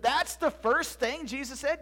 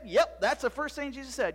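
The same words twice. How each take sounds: First: Slow, high, rising disbelief; incredulous question. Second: Matter-of-fact yes, falling at the end; firm confirmation. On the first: Boy doubting Zeb's account, incredulous. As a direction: question it slowly, ending on a rise. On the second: Zeb answering his doubting friend, firm. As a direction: confirm it with a settled fall. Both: Acted.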